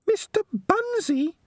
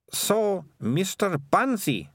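First: Tiny rat squeak, extremely high; a slow little shriek of a question; Peaches. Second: Put-on high, slow disdainful girl; scornful Melissa. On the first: Rat hearing Mister Bunsey dismissed, shocked squeak. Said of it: "squeaked Peaches". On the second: Melissa dismissing the childish book, slow scorn. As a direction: draw out the name with disdain. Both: A narrator's reading.

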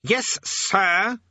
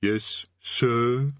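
First: High, loud, drawn-out SIR; snapped correction. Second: Drawn-out, unenthusiastic "sir"; grudging underling. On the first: Demon King correcting his underling, imperious snap. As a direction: snap it, stretching the last word. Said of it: "snapped the king". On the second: Underling corrected by the Demon King, grudging. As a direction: add the title reluctantly. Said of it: "The distant voice muttered something". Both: A narrator's reading.

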